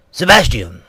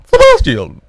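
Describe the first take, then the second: First: The Queen voiced too deep; plain, low call of the name; deep Queen's voice. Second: Very high, loud falsetto call; sudden piping falsetto; high-pitched Queen. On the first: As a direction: call the name in your own low register. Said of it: "not in such a deep voice". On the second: Retold or imitated. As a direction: squeal the name like a caricature queen. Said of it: "of course, it was more like a".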